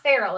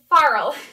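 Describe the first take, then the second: First: It sounds like the word feral. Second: It sounds like the word farl. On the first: The speaker calls it wrong. "it is not feral" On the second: The speaker calls it right. "It's a farl, not like the feral cat"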